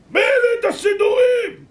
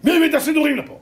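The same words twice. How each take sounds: First: Very high, drawn-out SS scream; full-force acted fury; screamed interrogation. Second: High, loud acted SS demand; menacing shouted question; angry interrogation. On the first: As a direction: scream the question, stretching every word. SS man screams the question again. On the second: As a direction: bellow the question at the prisoners. SS man demands who brought prayerbooks.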